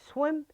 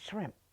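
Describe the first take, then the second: First: The word begins with an sw sound. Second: The word begins with an shr sound. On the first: "I said swim" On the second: "instead of shrimp"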